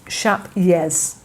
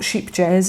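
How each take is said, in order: First: Vowel like shape, then a Y sound. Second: Long ee vowel, then a hard J sound. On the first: The speaker calls it right. "the J is a Y, ... it's more like shap" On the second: The speaker calls it wrong. "it's not sheep jazz"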